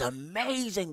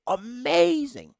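First: Said in the usual way. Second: Amazing said much higher, louder and drawn out; emphatic Amazing. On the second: Real, not acted. Fan praising Rashford's old season stretches out Amazing. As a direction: stretch out Amazing like you can't believe it.

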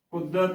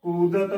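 First: ਕੁਦਤ with a short u in the first syllable; ਕੁਦਤ as kudat, short first vowel; wrong short u. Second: ਕੂਦਤ with a long u in the first syllable; ਕੂਦਤ as kūdat, long first vowel; correct long u. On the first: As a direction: say ਕੁਦਤ clipping the u short, the mistaken way. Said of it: "ਗਲਤ ਉਚਾਰਨ ਹੈ". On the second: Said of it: "ਕੱਕੇ ਨੂੰ ਦਲੈਂਕੜ ਕੂ". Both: Shown as a demonstration.

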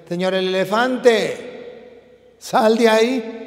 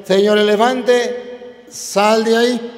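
First: Slow, drawn-out call to the elephant; a hint of a small frog demanding; lightly voiced frog, slow and insistent; little frog calling. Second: Drawn-out, firmer repeat of the call; a hint of a small frog demanding it again; lightly voiced frog, slow and insistent; frog insisting. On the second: Frog repeats order to elephant.

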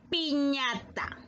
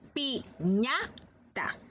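First: "piñata" stretched slowly, each syllable clear; slow, drawn out. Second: "Piñata" said very slowly with a lengthened last a. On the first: Teacher introduces "piñata" slowly to pupils. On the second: Teacher sounds out "Piñata" very slowly for children. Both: Shown as a demonstration. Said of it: "vamos a pronunciar".

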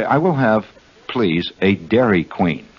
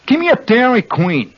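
First: Slow, careful, formal "Dairy Queen"; polite, precise "Dairy Queen", word by word; overly correct ordering. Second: High, blunt Jersey "Dairy Queen"; New Jersey accent. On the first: Host shows how not to order in Jersey, slow and formal. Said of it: "you do not go up and say". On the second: Host demonstrates ordering like a native, high Jersey accent. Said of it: "that's the correct pronunciation". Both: Shown as a demonstration.

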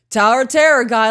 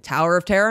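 First: High, loud exclamation; retold emphatic agreement. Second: Said in the usual way. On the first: Climber answering guide before the drop, emphatic agreement. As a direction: throw it back higher and louder.

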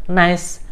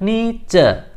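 First: "nice" said as one syllable, /nais/; "nice" as a single syllable; real pronunciation. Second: "nice" read as written, ni-ce, two syllables; spelling pronunciation. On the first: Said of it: "kita mengucapkannya hanya nice". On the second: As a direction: sound out "nice" as ni-che, letter by letter. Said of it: "dua suku kata". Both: Shown as a demonstration.

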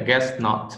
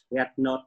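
First: Teacher's model with GUESS ending in s; clear final S. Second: Learner's GET for guess, no hiss at the end; missing S sound. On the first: Shown as a demonstration. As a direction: GUESS NOT, slowly separated, with a full s on guess. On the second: Real, not acted. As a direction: GET NOT, with a t where GUESS needs an s. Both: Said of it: "này là âm S".

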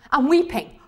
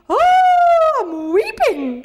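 First: Said in the usual way. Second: High, loud wail, drawn out slowly; mock weeping. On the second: Shown as a demonstration. Teacher shows class how to imagine Weipa, mock weeping. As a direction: wail it long, hamming up the tears. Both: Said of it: "I don't just go".

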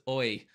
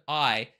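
First: "oi" for "I", imitating an Irish accent; Irish inflection. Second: Said in the usual way. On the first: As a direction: mimic an Irish singer's "I" as "oi". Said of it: "that little Irish inflection on the word I". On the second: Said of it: "it wasn't I, it was oi".

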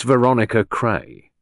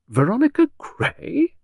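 First: Said in the usual way. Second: High, slow, astonished echo; astonished, voice lifting high; pure astonishment. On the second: A narrator's reading. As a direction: repeat the name as an amazed question. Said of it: "pure astonishment in Beryl's voice".

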